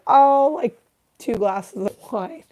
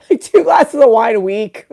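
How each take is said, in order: First: High "oh", then slow hedging answer; feigned casual innocence. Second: Loud, laughing through the line; laughing mock answer. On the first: Acted. Patient fibbing to the doctor about drinking, coy hedge. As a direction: hedge it coyly, drawing it out. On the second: Patient's fib to the doctor, mocked with loud laughter. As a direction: crack up while repeating the fib. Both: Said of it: "And you're like".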